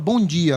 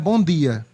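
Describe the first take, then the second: First: The d in dia has a hissing j-like sound. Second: The d in dia is a plain hard d. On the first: This is how people speak where the speaker lives now. "Aqui a gente fala" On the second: This is how people speak in the speaker's childhood region. "lá é"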